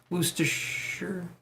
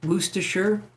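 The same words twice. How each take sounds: First: "Worcestershire?" softer and slower, shortened to "wuss-ta"; quiet retry. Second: "Worcestershire?" as "wuss-te-sher" with a rising, questioning tune; trying it out. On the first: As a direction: murmur the new pronunciation to yourself. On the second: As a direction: copy the Australian way, asking. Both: Shown as a demonstration. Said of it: "That's how you say it in Australia".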